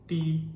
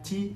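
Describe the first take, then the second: First: The syllable starts with a t sound. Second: The syllable starts with a ch sound. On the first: The speaker calls it wrong. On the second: The speaker calls it right. "Ini bacanya ci"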